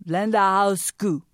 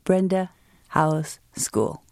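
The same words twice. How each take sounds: First: Put-on Blenda House School with an L for the R, Chinese accent; Chinese-accented line. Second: Said in the usual way. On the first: Grandpa's favorite American line, Chinese accent. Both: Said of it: "Grandpa's favorite American line".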